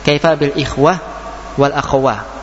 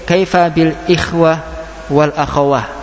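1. Akhiran kata dilafalkan dengan h di akhir. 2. Akhiran kata dilafalkan dengan h di akhir.

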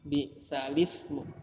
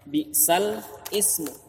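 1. Huruf l langsung tersambung ke ismu tanpa hamzah. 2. Ada hamzah yang memisahkan sal dari ismu. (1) "hamzah wasal di tengah tidak terbaca, harokatnya dipindah ke lamnya" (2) "asalnya bi sal ismu"

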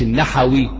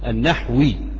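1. يُسمع حرف علة بين h و w. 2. لا يُسمع أي حرف علة بين h و w. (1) "مش" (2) "وهو منسوب الى النحو"

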